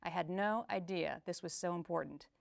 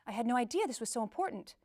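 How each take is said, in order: First: Sarcastic. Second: Surprised. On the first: Coach demonstrating emotions on a phrase, sarcasm. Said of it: "Or sarcasm". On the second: Coach demonstrating emotions on a phrase, surprise. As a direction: pitch leaping up on "idea". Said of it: "like surprise". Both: Shown as a demonstration.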